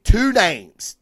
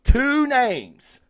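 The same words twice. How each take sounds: First: Two names said slowly with weight; slow down on two names to build it up; slow emphatic stress. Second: Two names with TWO hit much higher; stress on two, much higher. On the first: Host building suspense before naming the creators, slow and weighted. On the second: Host repeating the phrase to hype the creators, much higher. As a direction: pitch two names up for the payoff. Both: Shown as a demonstration. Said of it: "two names is all you need to know".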